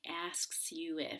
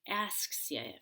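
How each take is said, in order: First: The words are said slowly and fully separated. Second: The words are said quickly and run together. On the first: The speaker calls it wrong. "instead of saying" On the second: The speaker calls it right. "I say"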